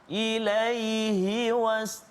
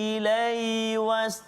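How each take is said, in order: First: The middle h sound is heard clearly. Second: The middle h sound is blurred away. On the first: The speaker calls it right. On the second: The speaker calls it wrong.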